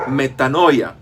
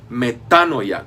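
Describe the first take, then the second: First: "metanoia" with the stress moved off the first a, onto -noi-; wrong stress. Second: "metanoia" said slowly, stressed on the first a; slow metanoia, weight on the first A. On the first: Teacher shows the wrong reading, metanoia stressed on -noi-. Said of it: "y no metanoia". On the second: Teacher correcting pronunciation, slow metanoia stressed on first A. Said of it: "con acento en la primera A". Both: Shown as a demonstration.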